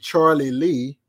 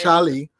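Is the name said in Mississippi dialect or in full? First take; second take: full; Mississippi dialect. First: The name is said in full, two parts. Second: The name is run together in Mississippi dialect.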